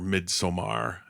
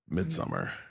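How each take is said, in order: First: It is said with a Swedish-style vowel. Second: It is said as the plain English word.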